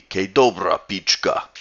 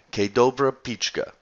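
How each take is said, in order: First: "Ke dobra pichka" in a put-on Slovenian accent, a bit louder; hint of a Slovenian accent; Slovenian accent attempt. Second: "Ke dobra pichka" said plainly, English-style vowels; first try at "Ke dobra pichka", no accent; Slovenian phrase. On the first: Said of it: "how you say it with an accent". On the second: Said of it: "I have no idea how you say it with an accent". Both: Shown as a demonstration.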